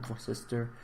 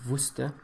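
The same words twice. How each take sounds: First: It is pronounced the American spelled-out way. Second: It is pronounced like the sauce name. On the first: The speaker calls it wrong. "like the Americans want to pronounce it" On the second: The speaker calls it right. "that's how I'm going to pronounce it, just like the sauce"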